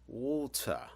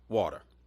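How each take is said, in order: First: It is said in a British accent. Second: It is said in a Southern American accent. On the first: "as they say in Britain" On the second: "in the place that I live, which is called, you know, Memphis, Tennessee, ... We kind of call it water"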